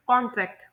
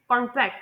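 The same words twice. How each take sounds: First: कॉन्ट्रैक्ट stressed on the first syllable; कॉन्ट्रैक्ट said as a noun, front-stressed. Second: कॉन्ट्रैक्ट stressed on the second syllable; कॉन्ट्रैक्ट said as a verb, end-stressed. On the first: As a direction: put the weight on the opening syllable of कॉन्ट्रैक्ट. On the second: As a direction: put the weight on the last syllable of कॉन्ट्रैक्ट. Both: Shown as a demonstration. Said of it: "noun और verb में इसके stress".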